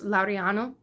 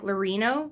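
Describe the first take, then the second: First: The name is said in its native form. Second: The name is said in an anglicized form. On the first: The speaker calls it right. "his last name was uh, was Laureano" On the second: The speaker calls it wrong. "it looks like Laurino. Like if you were to be English and American"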